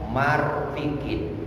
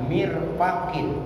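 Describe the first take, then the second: First: The first vowel is a, the second i. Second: The first vowel is i, the second a. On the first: The speaker calls it wrong. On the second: The speaker calls it right. "Mirfaqin bikasril mim wa fathil fa"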